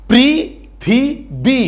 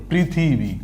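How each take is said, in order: First: পৃথিবী very slow, higher, in three separate beats; syllable by syllable. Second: Said in the usual way. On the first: Shown as a demonstration. Teacher demonstrates reading without spelling, syllable by syllable. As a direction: draw out পৃ, থি, বী with gaps between. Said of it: "শুধু সেই উচ্চারণটা করব". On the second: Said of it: "কি হয়ে গেল?".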